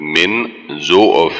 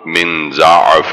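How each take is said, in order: First: The first vowel of the word is 'u'. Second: The first vowel of the word is 'a'. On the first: The speaker calls it right. "زاد کے پیش کے ساتھ" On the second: The speaker calls it wrong. "زاد کے زبر کے ساتھ"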